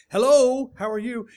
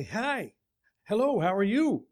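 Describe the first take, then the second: First: High, loud, eager schoolkid hello; kids' greeting. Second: Friendly grown-up answer, a little raised; adult's reply. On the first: Jordanian kids greeting a Western stranger on the street, high eager hello. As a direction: call out brightly like a child practising English. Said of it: "They're saying". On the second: Preacher replying to kids who greeted him in English, friendly answer. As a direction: answer the kids kindly in your own voice. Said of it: "you say". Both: Retold or imitated.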